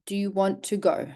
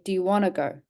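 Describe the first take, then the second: First: The T in 'want to' is clearly pronounced. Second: The T is dropped, sounding like 'wanna'.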